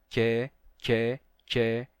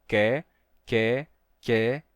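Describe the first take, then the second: No difference in how they are said.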